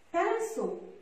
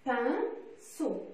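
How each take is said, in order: First: Said in the usual way. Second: "Pinceau" cut in two syllables with a pause between; "Pinceau" in two separate teaching beats; split into syllables. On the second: Shown as a demonstration. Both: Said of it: "Dans quelle syllabe".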